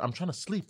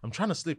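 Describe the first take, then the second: First: It is said in a polite, gentle tone. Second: It is said in an irritated, agitated tone.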